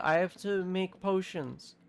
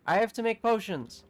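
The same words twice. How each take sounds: First: Said in the usual way. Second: Louder, higher exclamation; urgent insistence. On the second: Real, not acted. Gamer suddenly set on brewing, urgent and insistent. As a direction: burst out with it, raised and emphatic.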